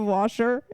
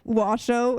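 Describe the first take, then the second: First: The word ends with an 'er' sound. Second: The word ends with an 'oh' sound. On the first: "instead of washer" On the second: "he says O instead of E R"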